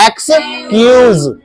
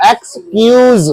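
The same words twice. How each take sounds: First: एक्सक्यूज slowly, split as eks, kyooz; slow model pronunciation. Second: एक्सक्यूज said joined, higher, as eks-kyooz; eks-kyooz for एक्सक्यूज, buzzed z at the end; model pronunciation. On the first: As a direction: stretch एक्सक्यूज in two higher pieces. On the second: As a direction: present एक्सक्यूज as the finished word, higher. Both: Shown as a demonstration. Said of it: "तो ये हो गया आपका".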